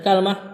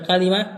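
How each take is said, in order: First: Two syllables, with a after k. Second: Three syllables, with a after both k and l. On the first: "bisa dibaca kalmah" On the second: "Bisa dibaca kalimah"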